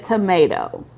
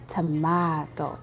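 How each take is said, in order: First: Tomato said as "tuh-MAY-toe"; tomato, American "ay" vowel; blunt tomato. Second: Tomato said softly as "tuh-MAH-toe"; slow, low and soft tomato with an "ah" vowel; sweet tomato. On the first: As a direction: say tomato with a plain long "may" in the middle. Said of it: "tell that person I said tomato". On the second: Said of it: "Real sweet". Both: Retold or imitated.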